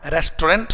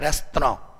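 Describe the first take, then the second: First: It is said in an Indian accent. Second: It is said in a British accent.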